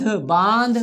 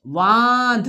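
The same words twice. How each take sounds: First: Said in the usual way. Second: बांध très étiré, son par son; étire बांध lentement pour faire lire la classe; lecture syllabée. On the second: Shown as a demonstration. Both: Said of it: "हमारे साथ पढ़ना है आपको".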